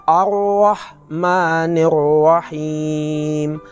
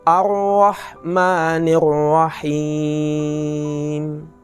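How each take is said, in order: Both takes have the same delivery.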